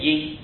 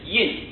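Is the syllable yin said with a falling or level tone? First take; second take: level; falling. First: The syllable has a high level tone. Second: The syllable has a falling tone. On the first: The speaker calls it wrong. "不念阴，不要念作阴阳的阴" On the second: The speaker calls it right. "跟这个印字相同，同音"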